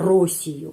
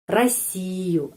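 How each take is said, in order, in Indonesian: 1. Vokal pertama terdengar seperti O. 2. Vokal pertama terdengar seperti A. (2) "huruf O ini pengucapannya A"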